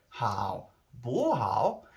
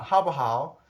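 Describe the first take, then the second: First: "Hao bu hao" slow, swooping upward late; very slow, sing-song "Hao bu hao"; altered Chinese tones. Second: "Hao bu hao" higher and brisk, falling away; louder, higher tonal "Hao bu hao"; Chinese tones. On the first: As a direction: stretch "Hao bu hao" with exaggerated tone swings. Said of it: "But if I say". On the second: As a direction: say "Hao bu hao" as a quick, raised question. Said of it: "on the way you say it". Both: Shown as a demonstration.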